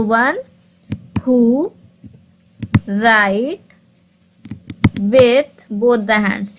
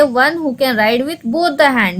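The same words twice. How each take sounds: First: Each word slowly, with long pauses between; slow, pausing classroom dictation. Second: 1 slow reading. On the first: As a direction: dictate it word by word for students to copy. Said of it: "ठीक है, तो". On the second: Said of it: "एम्बिडेक्स्ट्रस का मतलब हम आपको बता दें". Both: Shown as a demonstration.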